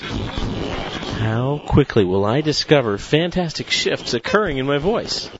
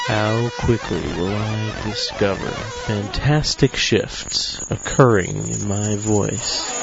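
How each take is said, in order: First: It starts slower and speeds up throughout. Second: It is spoken at a moderate, steady pace.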